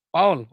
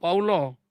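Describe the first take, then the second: First: The name is said as one syllable. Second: The name ends with an added vowel syllable. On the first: The speaker calls it right. "kalau orang panggil nama saya" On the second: The speaker calls it wrong.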